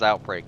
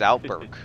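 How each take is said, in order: First: The second syllable sounds like 'break'. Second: The second syllable sounds like 'burk'. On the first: The speaker calls it wrong. "They pronounce it as Outbreak. I don't" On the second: The speaker calls it right. "It's Outburk. There's no E A in it"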